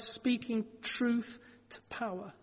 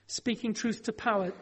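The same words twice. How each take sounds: First: "speaking truth to power" spoken slowly and softer, each word weighed; slow, weighty phrase. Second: Said in the usual way. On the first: Shown as a demonstration. Preacher to congregation, "speaking truth to power" slow and weighty. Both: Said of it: "there is a phrase we use sometimes".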